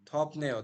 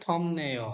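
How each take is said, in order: First: The first word ends with a p sound. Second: The first word ends with an m sound. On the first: The speaker calls it wrong. "যেমন আপনি থপ নেও বললেন না" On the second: The speaker calls it right. "তাহলে কি সঠিক উচ্চারণ হবে?"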